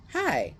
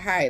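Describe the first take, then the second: First: Very high, sing-out little hello; high-pitched mock-smitten greeting; flirty greeting. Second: Short, unimpressed hello; imitating someone not swayed at all; unfazed greeting. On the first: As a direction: imitate a sweet, eager hello way up high. Man flirting at first meeting. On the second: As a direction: brush off the flirt with a quick greeting. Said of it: "she is not even fazed, not swayed".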